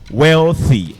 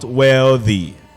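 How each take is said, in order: First: The 'th' is a voiceless sound. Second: The 'th' is a voiced sound. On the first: The speaker calls it right. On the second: The speaker calls it wrong.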